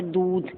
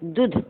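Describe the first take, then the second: First: "दूध" as doodh, long ū; drawn-out oo in "दूध". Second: "दूध" as dudh, short u; brief u in "दूध"; wrong short vowel. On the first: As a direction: hold the vowel in "दूध". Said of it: "बड़े की मात्रा लगती है". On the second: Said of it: "दूध अशुद्ध है". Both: Shown as a demonstration.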